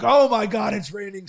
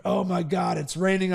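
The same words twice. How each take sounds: First: Retold excitement. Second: Said in the usual way. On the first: Runner quoting himself welcoming a downpour, retold excitement. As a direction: lift "Oh my God" eagerly. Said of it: "I'm like". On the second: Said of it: "rest of the world is like".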